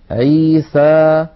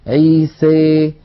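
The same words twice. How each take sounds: First: The final vowel is an open 'a' sound. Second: The final vowel leans strongly toward 'ee'. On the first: "فتحا وسطا" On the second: "يخلط صوت الألف بصوت الياء أكثر من هذا"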